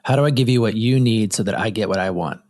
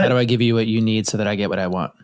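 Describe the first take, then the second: First: It is said slowly. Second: It is said fast.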